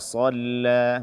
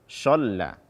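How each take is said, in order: First: The first consonant is a heavy emphatic s. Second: The first consonant is an sh sound. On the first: The speaker calls it right. "Abadan idza shalla" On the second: The speaker calls it wrong. "Atau dengan shin"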